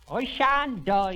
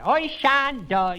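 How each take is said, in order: First: Slow, high and louder mock shout. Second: Slow, very high, loud shout. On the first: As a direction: bellow it stubbornly, slowly. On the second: Shown as a demonstration. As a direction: shout it back at full volume. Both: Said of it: "shouted it at me like that".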